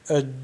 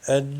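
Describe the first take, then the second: No difference in how they are said.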